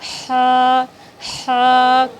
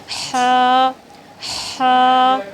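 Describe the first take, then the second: Both takes have the same delivery.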